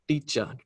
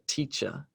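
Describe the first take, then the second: First: The word begins with a d-like sound. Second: The word begins with a clear t sound. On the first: The speaker calls it wrong. "A lot of their t sounds sound like d sounds" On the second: The speaker calls it right. "instead of"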